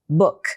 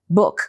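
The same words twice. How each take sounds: First: The vowel is short and clipped. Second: The vowel is short and clipped.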